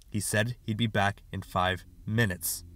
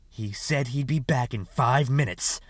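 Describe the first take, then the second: First: Said in the usual way. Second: Slow, mocking echo of the boy's words; sneering slow parroting; scornful mimicry. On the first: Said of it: "He repeated". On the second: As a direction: throw his excuse back at him with scorn. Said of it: "said Sister McCandless with scorn".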